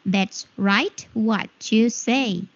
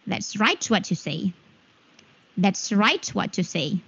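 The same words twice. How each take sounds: First: Slow, word-by-word teaching demo; slow and clearly separated. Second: Said in the usual way. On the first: Shown as a demonstration. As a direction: stretch each word out for learners. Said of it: "Oke, Miss perlambat lagi". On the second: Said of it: "Miss perlambat lagi".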